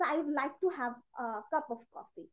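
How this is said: It is spoken in a Kashmiri Indian accent. "Kind of Kashmiri accent"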